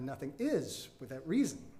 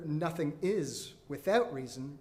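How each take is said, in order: First: The word 'is' carries the main stress. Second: The word 'is' carries no special stress. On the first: It is a statement about being. "the is in the principle nothing is without reason sets the pitch" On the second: It is a statement about beings. "No longer"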